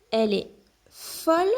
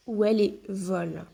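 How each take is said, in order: First: Folle with a clear f sound, rising at the end; stressing f. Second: Vole with a clear v sound, falling at the end; stressing v. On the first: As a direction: make the f in folle audible. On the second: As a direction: make the v in vole buzz. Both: Shown as a demonstration. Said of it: "ou ils font à la piscine".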